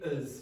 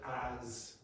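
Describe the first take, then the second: First: The word is said in a weak, reduced form. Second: The word is said in its full form.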